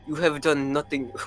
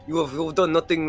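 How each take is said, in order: First: It is read in the reader's natural voice. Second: It is read in a put-on character voice.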